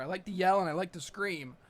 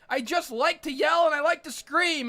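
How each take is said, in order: First: Low, soft, subdued admission; low confession. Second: Raised, emphatic ranting delivery; insistent declaration. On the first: Comic admitting why he yells at the screen, low and subdued. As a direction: say it quietly, pitched down. Muttered confession, later repeated louder. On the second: Comic defending himself against being judged, insistent rant. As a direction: proclaim it with mounting insistence. Same words, rising into a proud rant. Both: Real, not acted.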